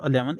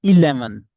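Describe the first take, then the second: First: ELEVEN said as uh-LEV-un; weak, unstressed uh opening ELEVEN; mistaken eleven. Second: ELEVEN with a clear ee-LEV-un, punched loud; loud, emphatic EE opening ELEVEN; corrected eleven. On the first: Teacher shows students what it is not, weak opening. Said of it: "It is not eleven". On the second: Teacher corrects students, emphatic clear first vowel. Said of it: "it is eleven". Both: Shown as a demonstration.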